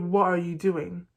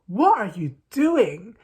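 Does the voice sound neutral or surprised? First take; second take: neutral; surprised. First: The question is said in a flat, neutral tone. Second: The question is said with a surprised tone. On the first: "if I say" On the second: "I wanna sound more like, you know, surprised"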